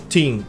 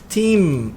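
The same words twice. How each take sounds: First: The final M is dropped without closing lips. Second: The final M is pronounced with closed lips. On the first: The speaker calls it wrong. "e não team" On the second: The speaker calls it right. "tem que pronunciar o M"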